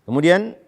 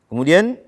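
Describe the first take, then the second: No difference in how they are said.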